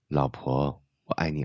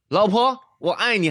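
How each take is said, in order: First: It is spoken at a soft, low volume. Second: It is spoken at a loud, full volume. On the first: The listener feels close and intimate. The speaker calls it right. "要降低我们的音量，说话放轻" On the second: The listener is treated like an outsider. The speaker calls it wrong. "因为它的音量是落在社交距离之上"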